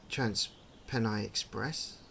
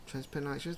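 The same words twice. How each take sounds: First: Said in the usual way. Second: "Transpennine Express?" asked with a rising, puzzled tone; softer, baffled echo of the sign; puzzled question. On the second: Real, not acted.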